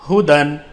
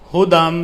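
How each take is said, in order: First: The word ends with an n sound. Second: The word ends with an m sound.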